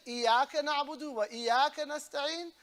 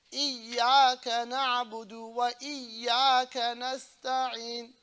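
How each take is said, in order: First: Quick "إياك نعبد وإياك نستعين" with single y; fast, higher "إياك نعبد وإياك نستعين", no doubled y; shadda dropped. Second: Stretched "إياك نعبد وإياك نستعين", both yas doubled; shadda on yas. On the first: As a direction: rattle through "إياك نعبد وإياك نستعين", yas unheld. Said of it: "you change the whole meaning". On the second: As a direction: press and hold the y in each "إياك". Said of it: "Shadda on the two yas". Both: Shown as a demonstration.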